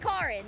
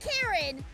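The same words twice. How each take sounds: First: The first syllable has a 'ka' sound. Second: The first syllable has a 'ke' sound. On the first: The speaker calls it right. "in the Japanese pronunciation, it's a ka sound, uh, not a ke sound" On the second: The speaker calls it wrong. "it's not Karen"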